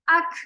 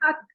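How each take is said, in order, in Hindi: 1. अंतिम k सुनाई देने वाली सांस के साथ खत्म होता है। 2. अंतिम k सुनाई देने वाली सांस के बिना खत्म होता है। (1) "अगर सुनाई दे रही हो आपको आवाज अक, ये जो हा है" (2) "अभी समझ नहीं आ रहा ना, मैंने अक पढ़ा के अत पढ़ा"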